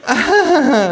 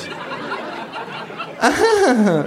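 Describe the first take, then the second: First: High, loud fake laugh; artificial laugh. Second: Long, high fake creature laugh; kangaroo's mimicking laugh. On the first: Hostess covering awkwardness, artificial laugh. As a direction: laugh falsely in a piercing pitch. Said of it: "Lacht die Frau künstlich". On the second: Kangaroo echoing hostess, long artificial laugh. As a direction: laugh along falsely, drawing it out. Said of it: "Lacht auch das Känguru". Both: A narrator's reading.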